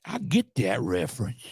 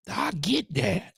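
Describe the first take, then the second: First: Said in the usual way. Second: Sarcastic drawl. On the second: Retold or imitated. Sarcastic reply to the video.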